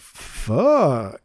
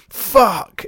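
First: The word is said in a silly, comedic way. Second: The word is said in a serious, harsh way.

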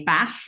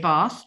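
First: It is said with a Yorkshire accent. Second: It is said in Queen's English. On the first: This is the regional way the family had to avoid. The speaker calls it wrong. "one of the things that we were never allowed to do at home was to say bath" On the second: This is the standard way the family had to use. The speaker calls it right. "or we had to say bath"

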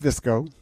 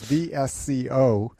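First: The name is said as a single word. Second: The name is spelled out letter by letter. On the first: The speaker calls it right. "but it's pronounced VSCO" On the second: The speaker calls it wrong. "I mispronounced it in the first hour as V-S-C-O"

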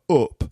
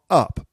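First: The vowel has a northern English, Manchester sound. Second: The vowel has a southern English sound. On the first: The speaker calls it right. "but up" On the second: The speaker calls it wrong. "again, not up"

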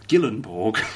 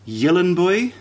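First: The name ends with a hard 'borg' sound. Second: The name ends with a soft 'boy' sound. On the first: The speaker calls it wrong. "I thought you were going to do it properly then" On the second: The speaker calls it right. "Apparently it's a little bit like Gyllenboy"

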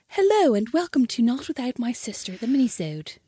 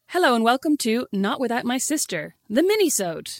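First: It is said in an exaggerated posh voice. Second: It is said in a normal, unaffected voice.

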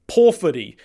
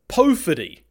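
First: The first o has a pure Māori vowel sound. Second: The first o has an English-style vowel sound. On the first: The speaker calls it right. "The correct pronunciation is Powhiri, in keeping with the O should make an O sound" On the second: The speaker calls it wrong. "That is in fact not the correct pronunciation"

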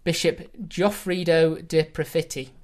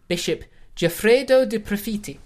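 First: The name is said in an English accent. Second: The name is said without an English accent.

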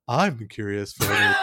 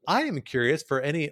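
First: It is read in an exaggerated, put-on voice. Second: It is read in an ordinary speaking voice.

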